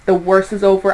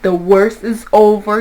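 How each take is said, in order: First: Said in the usual way. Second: "the worst is over" said slowly and firmly; slow down and weight each word of "the worst is over"; emphatic repeat. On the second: Real, not acted. Reader reassuring Aries, slow emphatic "the worst is over". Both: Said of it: "I repeat".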